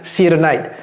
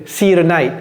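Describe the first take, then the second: No difference in how they are said.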